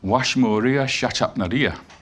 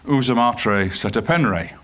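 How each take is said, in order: First: The name is said with 'a' vowels and 'sh'. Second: The name is said with filler 'e' vowels. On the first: How the name sounded in its own time. "it doesn't sound like that at all. It sounds like Washmoria Shatapnaria" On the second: The conventional scholarly reading of the name. "we insert the letter E wherever we don't, we don't know the, the actual value of a vowel"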